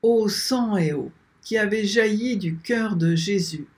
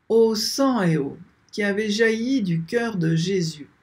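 The two takes are said the same way.

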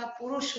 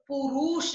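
First: Said in the usual way. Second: पुरुष said "puroosh"; wrong long vowel. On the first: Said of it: "होता है". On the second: Shown as a demonstration. Teacher correcting a mistake, पुरुष as long "puroosh". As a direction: stretch the u sounds of पुरुष. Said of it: "नहीं होता".

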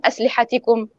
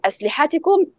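First: أسلحتكم with the push on the ت before the ending كم; correct stress on the Ta. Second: أسلحتكم with the push on the ح and a rising pitch; wrong stress on the Ha. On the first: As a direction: press the ت in أسلحتكم, the right way. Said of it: "الأولى أم الثانية". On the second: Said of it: "خلينا نشوف الفرق". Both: Shown as a demonstration.

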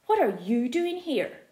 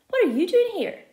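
First: Said in the usual way. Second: Loud, high excited question; excited shout. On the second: A narrator's reading. Felix shouting to friend who turned up, excited. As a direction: shout it across to him, thrilled. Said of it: "I shout".

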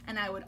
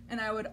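Both takes have the same delivery.

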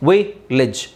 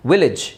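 First: ವಿಲೇಜ್ in two separate parts, "vi, lej"; split into syllables. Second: Said in the usual way. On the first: Shown as a demonstration. Teacher breaking up the example word, ವಿಲೇಜ್ syllable by syllable. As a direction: pause after the first syllable of ವಿಲೇಜ್.

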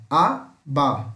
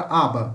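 First: "aba" split as A, ba, slowly; syllable by syllable. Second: Said in the usual way. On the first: Shown as a demonstration. Teacher shows how the word separates, "aba" syllable by syllable. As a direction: say "aba" in two separate slow beats, a-ba. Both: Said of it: "Separa assim".

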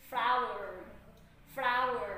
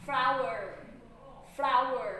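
First: "Flower" said as flour, one syllable, fla-wer run together; flour pronunciation. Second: "Flower" louder, two clear syllables flow-er; flower pronunciation. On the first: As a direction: say "Flower" meaning flour, short and clipped. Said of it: "คำว่าแป้งนี่มันจะออกเสียงเป็น flower". (ออกเสียง "Flower" แบบแป้ง) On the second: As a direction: say "Flower" meaning the bloom, fuller and louder. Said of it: "ส่วนคำว่าดอกไม้จะออกเสียงเป็น flower". (ออกเสียง "Flower" แบบดอกไม้ ดังชัด) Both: Shown as a demonstration.

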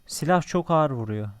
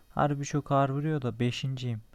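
First: Loud, pitched-up outburst at the gun's power; loud exclamation. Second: Said in the usual way. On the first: Real, not acted. Gamer shouting about the gun's damage, loud and amazed. Gun hits hard, exclaims loudly.

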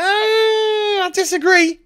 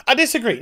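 First: High, slow, wailing cry of I disagree; mock wailing shout. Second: Said in the usual way. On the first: To the imagined critic, a high wailing mock cry. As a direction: ham up a wounded howl.

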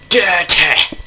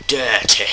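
First: Loud, high-pitched exclamation; mock outburst. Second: Lightly raised, drawn-out word; first step of a mock build-up; playful emphasis. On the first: Player joking about getting dirty, mock outburst. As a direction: blow the word up into a playful yell. Repeats dirty, louder second time. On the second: Player joking about getting dirty, playful emphasis.

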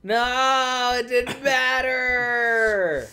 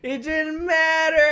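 First: Loud, slow yell broken by a laugh; high laughing outburst; laughing shout. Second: Much higher and louder outraged yell; high indignant shout; full shout. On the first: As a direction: shout it out while cracking up. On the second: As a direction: scream it at the screen. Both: Real, not acted. Yelling at game twist.

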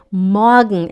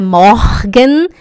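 First: "morgen" as "moa-gn", r softened to a light a; slow falling "morgen", swallowing the last e; correct pronunciation. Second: "morgen" with sounded r and full "gen"; wrong pronunciation. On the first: Teacher corrects students, "morgen" as moa-gn. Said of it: "É um leve som de A". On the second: Teacher shows what to avoid, "morgen" as mor-gen. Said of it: "não é morgen". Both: Shown as a demonstration.

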